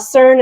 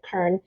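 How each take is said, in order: First: The name begins with a soft S sound. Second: The name begins with a hard K sound.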